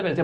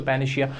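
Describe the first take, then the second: First: पेनिसिया with a clear "s" sound; correct pronunciation. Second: पेनिशिया with "sh" in place of "s"; common mispronunciation. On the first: Teacher showing students how the word is read, correct pronunciation. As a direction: say पेनिसिया with "see-ya", not "shia". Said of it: "क्या पढ़ा जाता है". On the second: Teacher showing students the common mistake, mispronunciation. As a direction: say पेनिशिया ending in a slurred "shia". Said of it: "जो कि गलत होता है". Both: Shown as a demonstration.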